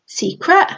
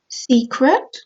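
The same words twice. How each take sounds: First: Put-on higher, rising child's secret; a small boy keeping a secret; teasing little boy. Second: Guilty. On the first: Little boy teasing his sister, high and rising. Max dodging the question. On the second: Acted.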